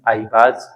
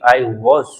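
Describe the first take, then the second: First: The word 'was' begins with a 'b' sound. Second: The word 'was' begins with a 'w' sound. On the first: This is a local way of speaking. "Indian का भी एक accent है कि बाज बोलेंगे हम" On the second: This is the recommended way of speaking. "कोशिश कर पाए तो ऐसा बोल ले"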